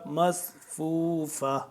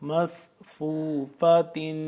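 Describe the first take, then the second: First: The word ends with a vowel. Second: The word ends with a 'tin' sound. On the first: The reader stops on this word. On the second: The reader continues without stopping.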